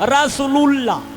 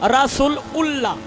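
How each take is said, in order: First: The words are joined into one, ending lullah. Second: The ending is pronounced as a separate ullah. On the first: "কেউ কয় লুল্লাহ" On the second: "কেউ কয় উল্লাহ"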